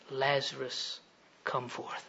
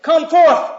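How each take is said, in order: First: Very soft, low, deliberate call; hushed command. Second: High, loud divine command; commanding shout. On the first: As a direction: summon one man quietly, with authority. Jesus calls only Lazarus, hushed. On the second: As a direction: call the dead out with full force. Imagined God commands all the graves. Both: Acted.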